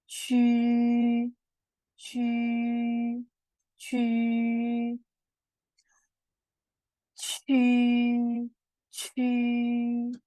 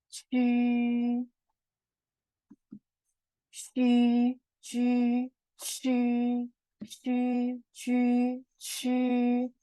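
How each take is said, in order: Both takes have the same delivery.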